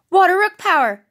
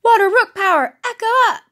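First: Loud battle cry, playful; heroic power-up call. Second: Loud, higher battle cry, playful; a second, bolder go at the pretend transformation; heroic power-up call. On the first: Pretend. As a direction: call out the power-up like a cartoon hero. Pretend hero power-up call. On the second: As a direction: shout it out to transform.

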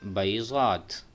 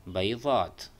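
Both takes have the same delivery.

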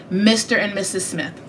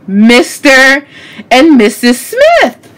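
First: Said in the usual way. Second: Loud, slow, drawn-out reveal; belted out with pauses between words; dramatic reveal. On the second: Real, not acted. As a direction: announce the title like a big discovery. Dramatic reveal, louder take.

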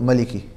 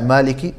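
First: Maliki with a short first a; plain fatha. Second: Maliki as "Maaliki", first a held long; standing fatha. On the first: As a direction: keep the first vowel of Maliki brief. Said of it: "or you can put a fatha". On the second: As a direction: lengthen the first vowel of Maliki. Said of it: "you can put a standing fatha". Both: Shown as a demonstration.

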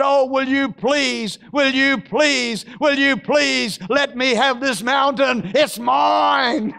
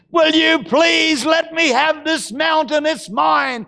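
First: Pleading plea. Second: Shouted demand. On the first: Caleb pleading for the mountain. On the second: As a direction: demand the mountain outright. Caleb's plea, repeated. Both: Acted.

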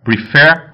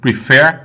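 Both takes have the same delivery.

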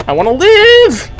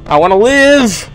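First: I wanna live cried out much higher; desperate high plea. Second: Said in the usual way. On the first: Real, not acted. Streamer begging the game to survive, panicked high squeal. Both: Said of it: "I don't wanna die!".

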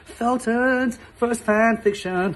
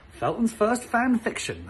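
First: Slow, grand title read; higher, slow announcer voice; show title announcer. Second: Announcing. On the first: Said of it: "not a bad name for a show". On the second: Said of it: "drum roll please". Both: Shown as a demonstration.

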